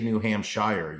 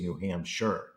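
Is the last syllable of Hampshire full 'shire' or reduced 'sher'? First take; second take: full shire; reduced sher. First: The last syllable sounds like full 'shire'. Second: The last syllable is reduced to 'sher'. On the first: The speaker calls it wrong. "You don't say New Hampshire" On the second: The speaker calls it right. "You say New Hampshire"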